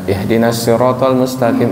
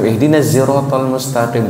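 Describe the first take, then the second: First: Siratal begins with a plain s sound. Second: Siratal begins with a z sound. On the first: "Kadang dibaca sin" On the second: "kadang baca zai"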